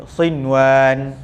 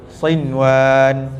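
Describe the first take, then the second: Both takes have the same delivery.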